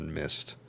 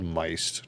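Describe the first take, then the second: First: The vowel is short, like in 'mist'. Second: The vowel is long, like in 'mice'. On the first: "not mist" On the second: "I thought it was called miced"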